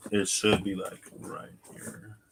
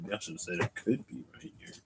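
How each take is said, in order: First: "should" stressed, the rest dropping away. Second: "could" gets the weight, said quickly and softly; quick, soft correction that leans on "could"; stress on could. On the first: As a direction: lean on "should" in "It should be, like, right here". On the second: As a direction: hit "could" in "it could be right here". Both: Shown as a demonstration. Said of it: "Emphasis on the word should".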